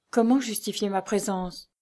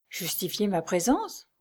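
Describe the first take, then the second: First: Said in the usual way. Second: PRÉSENCE drawn out with a rising questioning end; questioning echo. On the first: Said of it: "se demandait-elle". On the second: A narrator's reading. Lucie challenging her own doubt, questioning echo. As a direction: repeat it slowly, lifting PRÉSENCE at the end. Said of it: "répéta-t-elle".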